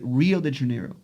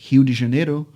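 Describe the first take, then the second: First: It is said with an English rhotic R. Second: It is said with Portuguese pronunciation.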